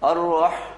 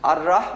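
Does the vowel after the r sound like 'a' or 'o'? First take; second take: o; a. First: The r is heavy, with a rounded o-like vowel. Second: The r is light, with an open a vowel. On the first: The speaker calls it right. "আর রহ আছে না" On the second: The speaker calls it wrong. "আর রাহ বললে ভুল হবে"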